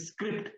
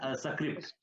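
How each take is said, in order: First: The word starts directly with the S sound. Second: A short vowel sound comes before the S. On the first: The speaker calls it right. "instead of saying script" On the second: The speaker calls it wrong. "it come came as a script"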